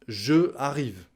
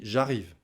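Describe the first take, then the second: First: The vowel of je is fully pronounced. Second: The vowel of je is dropped. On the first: The speaker calls it wrong. "On ne dit pas je arrive en français" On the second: The speaker calls it right. "On dit j'arrive"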